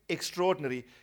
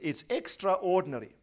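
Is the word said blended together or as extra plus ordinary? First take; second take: blended; extra ordinary. First: The word is said quickly in its blended form. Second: The word is said fully as extra plus ordinary. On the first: The speaker calls it wrong. "We say extraordinary. / we don't pronounce it correctly" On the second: The speaker calls it right. "if you say it out as it's written"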